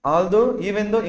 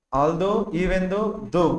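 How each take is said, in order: First: Said in the usual way. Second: Very slow and a little softer, each word stretched; slow dictation. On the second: Shown as a demonstration. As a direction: spell out although, even though for the class. (చాలా నెమ్మదిగా, ప్రతి పదం సాగదీసి) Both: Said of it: "ఇవన్నీ ఏంటో చెప్తారా?".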